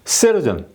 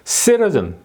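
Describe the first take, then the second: No difference in how they are said.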